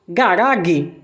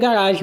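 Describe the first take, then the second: First: The G is hard, like in garoto. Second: The G is soft, like a J sound. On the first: It treats the word as native German. The speaker calls it wrong. "eu vou pronunciar garage? Não" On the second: It treats the word as a foreign loan. The speaker calls it right. "Aqui você pronuncia garagem mesmo, normal"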